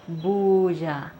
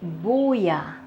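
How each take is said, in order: First: The middle consonant is a buzzing 'zh'-like sound. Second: The middle consonant is a soft 'y' sound. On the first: "I don't say buya, buya" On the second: "I say buya. So I replace the sound z with an e sound"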